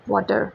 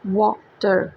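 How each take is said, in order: First: Said in the usual way. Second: वाटर broken in two, wa - ter; split into syllables. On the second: Shown as a demonstration. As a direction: pause briefly between the two syllables of वाटर. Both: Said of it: "टू syllables को indicate".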